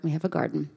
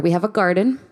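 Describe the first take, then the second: First: Quiet deadpan repeat. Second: Said in the usual way. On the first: Shown as a demonstration. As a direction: repeat it under your breath as a dry joke. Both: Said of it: "That's important".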